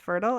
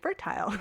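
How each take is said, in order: First: It is said the American way. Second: It is said the Canadian way.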